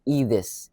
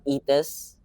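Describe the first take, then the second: First: The middle consonant is a hard th sound. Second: The middle consonant is a plain t sound. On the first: The speaker calls it right. "the actual pronunciation is with H" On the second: The speaker calls it wrong. "It's not pronounced Etis"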